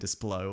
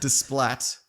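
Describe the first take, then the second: First: The name ends on an open o vowel. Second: The name ends with a clear t sound. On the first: The speaker calls it right. "It's probably Desplo or something like that" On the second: The speaker calls it wrong. "That's probably not how you say it"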